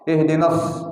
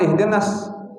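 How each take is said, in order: First: The s sound is heavy and emphatic. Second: The s sound is light and plain. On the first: The speaker calls it right. "hurufnya bukan huruf sin, huruf sad" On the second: The speaker calls it wrong.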